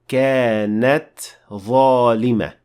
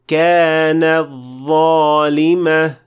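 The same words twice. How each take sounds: First: The t sound is clearly heard at the end. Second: The t sound merges into the next word. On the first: The speaker calls it right. "You have to show the ta at the end of the word" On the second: The speaker calls it wrong. "You are not supposed to say كانت ظالمة. That is not correct"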